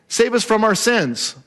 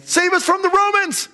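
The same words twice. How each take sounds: First: Said in the usual way. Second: High-pitched rallying cry; crowd's cry. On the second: Acted. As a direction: call out high, like a crowd demanding rescue. Acted crowd's political cry.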